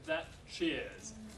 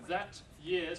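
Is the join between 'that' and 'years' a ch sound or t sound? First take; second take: ch sound; t sound. First: The t and y merge into a ch sound. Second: A plain t is followed by a y sound. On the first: "becomes that cheers" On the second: "that years becomes"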